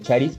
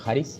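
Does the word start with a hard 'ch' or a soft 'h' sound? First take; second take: hard ch; soft h. First: It starts with a hard English-style 'ch' sound. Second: It starts with a soft breathy 'h' sound. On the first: The speaker calls it wrong. "es porque la pronunciación en inglés así es" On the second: The speaker calls it right. "Pero debe ser haris"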